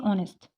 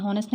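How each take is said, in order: First: ऑनेस्ट with a silent h, open "aw" start; ऑनेस्ट, starting straight on the vowel; right pronunciation. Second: हॉनेस्ट said with a sounded h, demonstrated as wrong; हॉनेस्ट, h sounded at the start; wrong pronunciation. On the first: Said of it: "क्या पढ़ते हैं". (ऑनेस्ट, बिना ह के सही उच्चारण) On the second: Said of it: "हॉनेस्ट नहीं पढ़ते". (हॉनेस्ट, ह बोलकर, गलत तरीका) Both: Shown as a demonstration.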